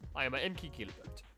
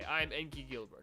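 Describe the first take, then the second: First: It is said in a put-on Italian accent. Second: It is said in the speaker's normal accent.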